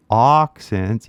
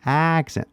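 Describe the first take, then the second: First: "occent" with an open o-like first vowel; wrong vowel. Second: "accent" with a clear flat a as in cat; correct vowel. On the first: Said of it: "you don't wanna say". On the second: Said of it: "you wanna say". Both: Shown as a demonstration.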